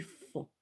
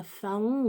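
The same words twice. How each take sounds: First: Said in the usual way. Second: "faon" said as two syllables, fa-on; wrong pronunciation. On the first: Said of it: "on dit faon". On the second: Shown as a demonstration. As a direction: sound the O in "faon": fa-on. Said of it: "on dit pas faon". (« faon » mal prononcé, en fa-on)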